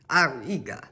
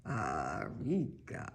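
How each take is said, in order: First: Badly faked German accent, sounding more Spanish; quick, uncertain stab at a German accent. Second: Slow, low, soft fake German accent; second, more deliberate go at a German accent; attempted German accent. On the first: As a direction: have a go at a German accent and land nearer Spanish. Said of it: "I don't know how to fake a German accent". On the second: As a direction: draw it out deep in a mock German accent. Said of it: "Sounds more like a Spanish accent". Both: Shown as a demonstration.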